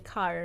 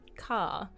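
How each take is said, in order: First: The final r sound is pronounced. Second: The final r sound is dropped. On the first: "With the R" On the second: "instead of saying car"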